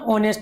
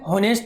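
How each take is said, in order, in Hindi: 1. शब्द सीधे एक स्वर से शुरू होता है। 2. शब्द की शुरुआत h की ध्वनि से होती है। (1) "ऑनेस्ट बोलना है" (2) "हॉनेस्ट नहीं बोल नहीं बोलना"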